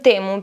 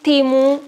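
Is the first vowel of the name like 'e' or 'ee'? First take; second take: e; ee. First: The first vowel sounds like 'e'. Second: The first vowel sounds like 'ee'.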